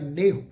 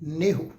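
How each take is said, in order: The two takes are said the same way.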